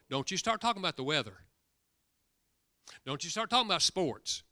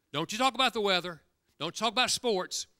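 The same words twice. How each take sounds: First: Firm, quick warning with stress on talking. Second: Louder and higher, hammering don't you talk; emphatic repeat. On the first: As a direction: caution him not to chat, leaning on talking. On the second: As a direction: insist the second time, pressing the warning. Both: Retold or imitated. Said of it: "that's what men talk about".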